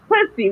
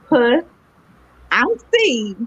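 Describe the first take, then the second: First: The name is run together as two syllables. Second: The name is said as three separate parts. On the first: The name sounds like a vulgar word. The speaker calls it wrong. "everybody pronounces it pussy" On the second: The name contains the host's name, C. The speaker calls it right. "the name of my show is"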